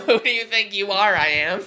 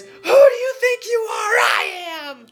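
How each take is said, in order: First: Said in the usual way. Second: High laughing shout; ecstatic shout. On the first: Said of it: "And it's like". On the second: Retold or imitated. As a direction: shout it with wild joy. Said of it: "And then he just says".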